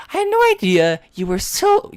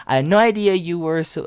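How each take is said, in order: First: Put-on high, sweet girl voice; Monica's voice. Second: Said in the usual way. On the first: Shown as a demonstration. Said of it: "It was Monica, not me". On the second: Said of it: "oh, my bad. It was Monica, not me".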